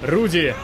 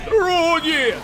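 First: The name is said without shouting. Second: The name is shouted loudly.

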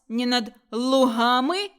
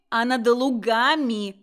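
First: The g is a soft, breathy h-like sound. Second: The g is a hard, stopped g sound. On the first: The speaker calls it wrong. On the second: The speaker calls it right.

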